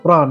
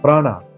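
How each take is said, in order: First: The word ends on a consonant sound. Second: The word ends with an added vowel sound. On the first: This is the original pronunciation. The speaker calls it right. "this is pran" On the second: This is the form with an added vowel. The speaker calls it wrong. "this is not prana"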